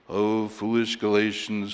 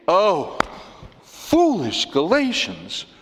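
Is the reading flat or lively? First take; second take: flat; lively. First: It is read in a flat monotone. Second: It is read with lively, animated expression. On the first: The speaker calls it wrong. "It defies reading in a monotone. ... you just can't read" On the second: The speaker calls it right. "No. He's saying"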